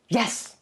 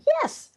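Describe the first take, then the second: First: It is said with impatient, exasperated annoyance. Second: It is said with excited, eager agreement. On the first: The speaker is tired of repeating it. "I've told you that a thousand times" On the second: The speaker agrees enthusiastically. "means I'm excited, I agree"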